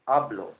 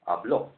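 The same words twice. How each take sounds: First: The stress is on the first syllable. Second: The stress is on the last syllable. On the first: I speak. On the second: He or she spoke.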